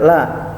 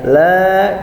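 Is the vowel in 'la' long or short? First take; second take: short; long. First: The vowel is cut short. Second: The vowel is held long. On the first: The speaker calls it wrong. "jangan sampai dibaca la. Lain beda arti nanti ya" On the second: The speaker calls it right. "la-nya panjang"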